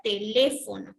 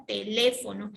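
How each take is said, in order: First: Said in the usual way. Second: Teléfono with the LE syllable pushed out, the rest light; teacher showing where the stress falls in Teléfono. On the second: Shown as a demonstration. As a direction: say Teléfono leaning on LE as a classroom example. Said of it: "es la sílaba que tiene la mayor intensidad de voz".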